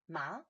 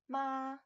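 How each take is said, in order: First: The pitch rises from middle to high. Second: The pitch stays high and level. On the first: It means hemp. "Second tone, ma, that's a rising tone" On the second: It means mother. "first tone, ma, is a high even tone"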